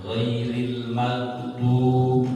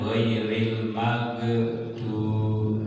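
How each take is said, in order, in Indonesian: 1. Bunyi gh ditahan tanpa memantul. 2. Bunyi gh memantul dengan gema. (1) "harus ditahan"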